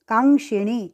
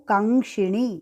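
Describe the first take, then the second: No difference in how they are said.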